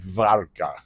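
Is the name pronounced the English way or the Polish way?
Polish. The name is said with Polish pronunciation. "the Polish pronunciation would be"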